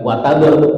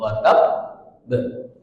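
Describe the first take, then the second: First: The b passes quickly with no hold. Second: The b is held briefly before release. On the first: The speaker calls it wrong. "jadi bukan wataber" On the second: The speaker calls it right. "tapi tahan dulu"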